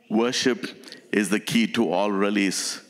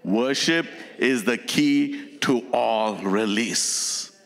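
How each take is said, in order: First: It is said in a plain, ordinary way. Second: It is said with deep, forceful conviction.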